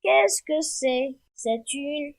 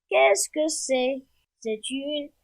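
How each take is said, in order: Both takes have the same delivery.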